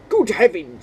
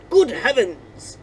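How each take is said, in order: First: It is spoken in an English accent. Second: It is spoken in an Australian accent. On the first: The speaker calls it right. "We're going to try that again with an English accent" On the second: The speaker calls it wrong. "Why am I giving this man a, a Australian accent?"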